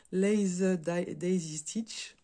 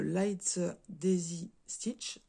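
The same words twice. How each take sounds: First: "Lace da-, daisy stitch" restarted slowly, more English sounds; self-correction. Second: "light daisy stitch" said slowly with French vowels; half Chinese half English. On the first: Crafter retrying the stitch name, slow careful English. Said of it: "moitié anglais". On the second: Crafter fumbling English stitch name for her viewers, slow and unsure. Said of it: "Je l'ai fait moitié chinois, moitié anglais". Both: Real, not acted.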